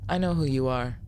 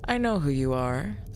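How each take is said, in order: First: The voice stays on one dull, flat pitch. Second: The voice varies in pitch and sounds lively. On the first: The speaker calls it right. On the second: The speaker calls it wrong.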